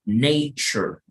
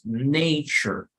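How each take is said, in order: First: The last syllable is weak and unstressed. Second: The last syllable is weak and unstressed.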